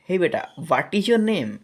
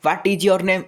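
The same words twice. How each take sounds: First: High start, name falling at the end; natural falling question. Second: Loud, high, forceful question; full force. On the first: Adult asking a child their name, high question falling on name. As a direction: ask kindly, pitched up, then drop on name. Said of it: "ଏମିତି ଏଇ ଟାଇପ୍ର ପଚାରୁଛେ". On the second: Teacher showing the wrong way to ask, loud and forceful throughout. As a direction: blast out the whole question at one level. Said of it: "ମୁଁ ଏମିତି ପୁରା ଜୋରରେ କହୁଛି". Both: Shown as a demonstration.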